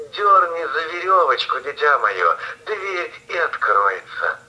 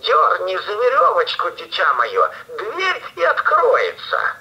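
First: Grandmother voice. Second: Wolf squeaking high to pass as granny; thinner voice. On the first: Sick grandmother calls out. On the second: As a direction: pitch it up thin and sweet, faking. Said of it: "и сказал потоньше". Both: Acted.

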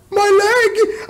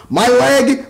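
First: Very high cartoon squeal; mock pained shriek. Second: Said in the usual way. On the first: Mimicking the show's old injury joke, very high squealed mock cry.

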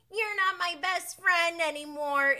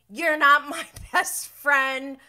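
First: Put-on high, loud little-kid sulk; four-year-old. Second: Put-on childish. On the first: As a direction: pout it like a small child. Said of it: "My four-year-old says". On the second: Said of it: "my four-year-old says that".

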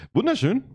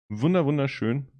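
First: High, gushing wunderschön; delighted. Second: Said in the usual way. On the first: Real, not acted. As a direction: swoon over it. Admiring the glass.

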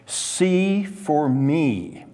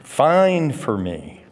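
First: "See for me" drawn out very slowly, stress on "See", falling; slow literal rendering. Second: "Find for me" said slowly, with "Find" punched; slow, and lean hard on "Find"; stress on find. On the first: Preacher giving the literal Hebrew wording, slowly and deliberately. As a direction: read it out slowly, leaning on "See". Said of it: "this is a literal translation". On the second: Preacher rephrasing the verb into plain English, stressing find. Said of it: "the nuance from that is the word to find". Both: Shown as a demonstration.

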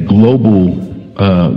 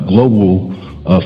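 Both takes have the same delivery.

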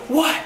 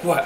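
First: Very high, loud "what"; hammed-up alarmed outburst; mock startled yell. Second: Said in the usual way. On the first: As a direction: yelp it in imitated panic. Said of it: "after I yelled". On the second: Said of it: "And she's like".

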